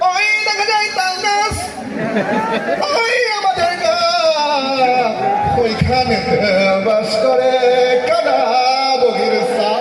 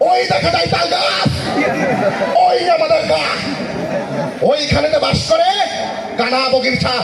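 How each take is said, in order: First: It is intoned like a religious preacher's sermon. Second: It is declaimed like a fiery political rally speech. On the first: "ওয়াজ মাহফিলের বক্তাদের হুজুরদের" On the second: "রাজনৈতিক বক্তাকে দেয়া যায় যিনি রাজনীতির মাঠ কাঁপায়"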